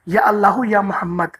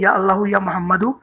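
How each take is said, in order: First: The phrase is said slowly and reverently. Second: The phrase is said quickly and hurriedly. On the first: The speaker calls it right. "आराम आराम से अदब से पढ़िएगा" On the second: The speaker calls it wrong. "बहुत सारे लोग ऐसे पढ़ते हैं ... इसको ऐसे नहीं पढ़ना"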